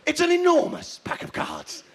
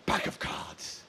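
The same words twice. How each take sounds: First: High-pitched, full-voiced amazement; big mock wonder. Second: Whispered, much softer; hushed reveal. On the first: Comic overselling the show's concept, mock wonder. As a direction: jump up high on "enormous". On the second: Pretend. Comic revealing the show's concept, hushed. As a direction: drop to an underwhelmed whisper. Deflated reveal before louder restatement.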